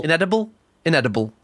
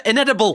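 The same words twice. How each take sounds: First: Inedible in a Geordie accent. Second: Said in the usual way. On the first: Shown as a demonstration. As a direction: try inedible with Geordie vowels. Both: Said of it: "That's hard to say in a Geordie accent".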